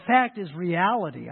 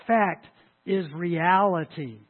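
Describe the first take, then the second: First: Said in the usual way. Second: "Fact" punched alone, pause, then "is reality" drawn out slowly; emphatic restatement. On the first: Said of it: "this is redundant". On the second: Shown as a demonstration. Preacher repeats his point for emphasis' sake, slow and emphatic. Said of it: "for emphasis' sake".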